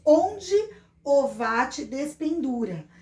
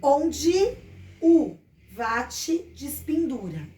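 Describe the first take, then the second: First: "onde o vate despendura" with full written O and E; careful spelling pronunciation of "despendura"; pronounced as written. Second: "onde o vate despendura" with O as U, E as I; slow, emphatic "u vatchi dispindura"; pronounced as spoken. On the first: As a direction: read "o vate despendura" letter by letter as spelled, slowly. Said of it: "nós escrevemos". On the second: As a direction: say "despendura" as "dispindura", spacing out the words. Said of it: "pronunciamos, lemos". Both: Shown as a demonstration.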